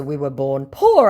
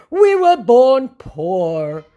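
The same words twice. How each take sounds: First: Said in the usual way. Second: Very slow, high, louder mock lament; mock scammer plea. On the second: Scammer pleading poverty, slow and hammed-up. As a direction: drag it out like a sorry excuse.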